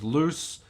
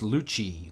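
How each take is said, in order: First: It is said like the English word loose. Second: It is said differently from the English word loose. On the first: The speaker calls it wrong. "In English is loose" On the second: The speaker calls it right. "but it's pronounced Luce"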